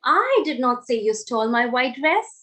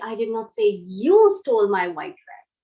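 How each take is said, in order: First: The stress falls on the word I. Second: The stress falls on the word you. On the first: Someone else said it. "Now I am stressing on the word I" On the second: Someone else stole the dress.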